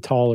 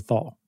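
First: The syllable begins with a plain t sound. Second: The syllable begins with a th sound. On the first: "it's up to the individual to say tall or thal" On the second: "it's up to the individual to say tall or thal"

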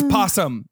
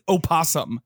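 First: The word begins directly with the p sound. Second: The word begins with an extra vowel sound. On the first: The speaker calls it right. "The word's possum. You drop the O" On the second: The speaker calls it wrong. "he insists that people pronounce it opossum"

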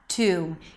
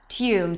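First: The vowel follows the t directly, without y. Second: A y sound comes before the vowel. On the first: "a t sound, the oo as in food, and an m" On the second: "with a y sound right before the oo"

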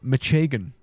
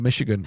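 First: Michigan is pronounced in a marked local way. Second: Michigan is pronounced in a standard way.

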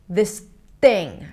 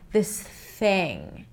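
First: The tongue stops the air mid-phrase. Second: The air flows smoothly without stopping. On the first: The speaker calls it wrong. "the tongue doesn't stop in the middle and stops the air" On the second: The speaker calls it right. "Make sure it's very smooth"

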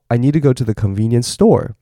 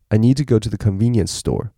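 First: The word store is stressed and high. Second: The word convenience is stressed; store stays flat. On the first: The speaker calls it wrong. "你不会说" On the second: The speaker calls it right. "你要后面要保持是没有任何的声调的。"

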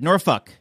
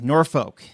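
First: The ending sounds almost like a swear word. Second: The ending does not sound like a swear word. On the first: The speaker calls it right. "Almost like you're saying the bad word" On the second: The speaker calls it wrong. "Everyone always says I pronounce that wrong"

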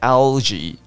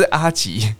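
First: The word is said with a clear L sound. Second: The word is said without a clear L sound. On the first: The speaker calls it right. "L 舌头顶上去，门牙后面" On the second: The speaker calls it wrong. "所以不要阿吉，不是阿吉"

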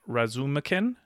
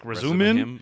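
First: The name is said with a k sound. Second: The name is said without a k sound. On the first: "if I just read it, it appears that I would pronounce his name" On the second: "apparently you're not supposed to pronounce the K"

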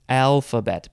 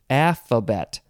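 First: The word is said with its L sound. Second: The word is said without its L sound. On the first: "instead of Alphabet" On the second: "the letter L, also known as Alphabet ... because it's no L"

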